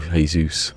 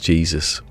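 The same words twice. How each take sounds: First: The name is said with Portuguese sounds. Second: The name is said with English sounds. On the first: It names the Brazilian footballer. "That's how you pronounce it" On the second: It names the biblical figure. "as in angel, and his last name's Jesus"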